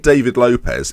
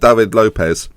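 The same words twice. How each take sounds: First: David is said with an English pronunciation. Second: David is said with a Spanish pronunciation. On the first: The name sounds like a middle-aged local club singer. The speaker calls it wrong. "it sounds like a forty-year-old man from, I don't know, Burnley" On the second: The name sounds continental. The speaker calls it right. "I'm saying David because it sounds Spanish"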